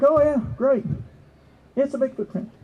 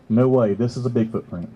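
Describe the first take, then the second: First: High-pitched, lightly acted acceptance; mock keen reaction. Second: Low-pitched, dismissive doubt; mock disbelief. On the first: Listener hearing of the juvenile Bigfoot print, mock keen. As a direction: play an easily pleased listener. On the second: Doubter answering the Bigfoot print claim, mock disbelief. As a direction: drop low and play the doubter. Same reaction turned to doubt.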